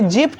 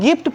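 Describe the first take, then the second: First: It begins with a j sound. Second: It begins with a hard g sound. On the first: The speaker calls it wrong. "जिफ्ट नहीं पढ़ेंगे" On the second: The speaker calls it right. "यहाँ पर भी दोस्तों हम लोग गिफ्ट पढ़ेंगे"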